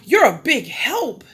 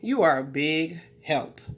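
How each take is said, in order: First: It is said warmly and sincerely. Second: It is said with a sarcastic tone. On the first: The person is thanked for real help. "She felt happy that I was here" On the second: The person actually did not help at all. "it makes it seem as if you're saying that I was lazy"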